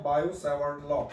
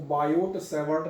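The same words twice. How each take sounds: First: बायो सेवर्ट law with a silent T in बायो; बायो सेवर्ट law, no T after बायो; correct pronunciation. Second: बायोट सेवर्ट with the final T of बायोट sounded; बायोट सेवर्ट read as spelt, T pronounced; wrong pronunciation. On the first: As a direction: say बायो सेवर्ट law, ending बायो on an open O. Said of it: "इसको हम क्या पढ़ते हुए आते हैं". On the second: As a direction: say बायोट सेवर्ट, voicing a hard T after बायो. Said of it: "इसको बायोट सेवर्ट नहीं पढ़ते हैं". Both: Shown as a demonstration.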